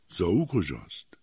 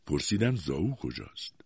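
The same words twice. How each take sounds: First: Gentle, unhurried question; gentle, polite. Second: Said in the usual way. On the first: A narrator's reading. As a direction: ask courteously, without pressing. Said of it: "با ملایمت و ادب".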